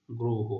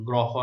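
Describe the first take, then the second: First: গ্রহ said "groho", with a rounded o; closed o in গ্রহ. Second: গ্রহ mispronounced "grɔho", with an open aw. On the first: Teacher showing pupils the correct vowel, গ্রহ as "groho". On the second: Teacher showing pupils what to avoid, গ্রহ as open "grɔho". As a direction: say গ্রহ with "graw" as first syllable. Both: Shown as a demonstration. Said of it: "গ্রহ নয়".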